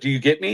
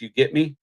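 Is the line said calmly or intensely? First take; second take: intensely; calmly. First: It is said with more intensity. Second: It is said fairly calmly.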